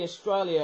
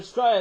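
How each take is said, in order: First: Said in the usual way. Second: "Australia" squashed into "Straya"; slang Straya. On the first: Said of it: "that's basically Australia". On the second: Shown as a demonstration. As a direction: drop the first and last syllables of "Australia": "Straya". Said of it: "if you say the word Australia".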